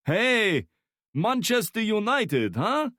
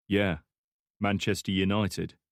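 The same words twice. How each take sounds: First: Put-on high, loud Slavic-accented Manchester United; heavy Slavic accent. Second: Said in the usual way. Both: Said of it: "speaking in a heavy Slavic accent".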